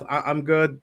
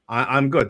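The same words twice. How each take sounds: First: It is said softly and politely. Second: It is said loudly and forcefully.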